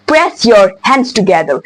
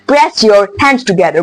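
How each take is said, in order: Both takes have the same delivery.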